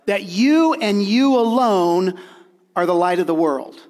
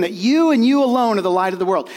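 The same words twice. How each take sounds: First: Slowed, emphatic "you and you alone"; stress on you. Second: Emphatic repeat of "you and you alone"; stress on you, louder. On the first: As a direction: land every "you" with weight. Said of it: "needs to be emphatic". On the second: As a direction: say it again, hitting "you" harder. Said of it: "Let me say that again". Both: Shown as a demonstration.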